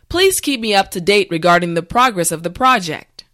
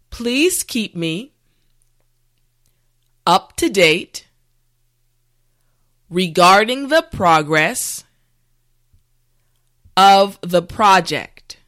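First: The sentence is said at natural speed. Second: The sentence is said slowly and carefully. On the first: "this time we will go at a more natural pace" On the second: "this time repeat after me"

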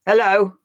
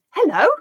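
First: The word sounds angry. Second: The word sounds surprised. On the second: "say it with surprise"

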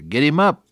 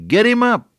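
First: It is said a little louder. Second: It is said very loudly.

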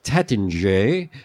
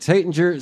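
First: It is pronounced the original, non-American way. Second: It is pronounced the Americanized way. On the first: "it was originally pronounced Taittinger" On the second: "Americans insisted on saying Taittinger"

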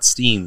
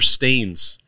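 First: The vowel is an 'ee' sound. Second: The vowel is an 'ay' sound. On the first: The speaker calls it wrong. "not steens" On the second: The speaker calls it right. "they're stains"

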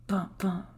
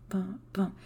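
Both takes have the same delivery.

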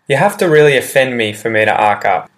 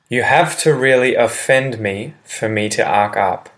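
First: The sentence is spoken quickly and naturally. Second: The sentence is spoken slowly and clearly. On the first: "Example said quickly"

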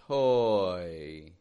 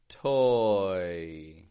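Both takes have the same delivery.

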